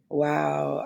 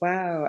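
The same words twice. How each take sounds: First: It sounds exasperated and disbelieving. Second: It sounds admiring and impressed. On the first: Something ridiculous was done. "like what did you do?" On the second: Something cool was done. "like that was dope, or you really did that, girl"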